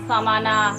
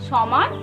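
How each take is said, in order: First: The word ends with an added final vowel. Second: The word ends on the final consonant sound. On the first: This is the Sanskrit or English form of the word. "English বা সংস্কৃতে বলি ওটা সমানা" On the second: This is the everyday Bengali form of the word. "বাংলায় যদি আমরা বলি normal ভাষায় বলি সমান"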